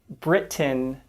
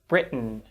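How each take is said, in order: First: The T is a fully released T sound. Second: The T is cut off as a glottal stop. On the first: The speaker calls it wrong. "We don't say" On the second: The speaker calls it right. "but we tend to say"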